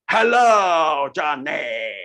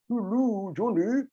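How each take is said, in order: First: It is said with a wide-open, monster-like mouth. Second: It is said with rounded, pursed lips.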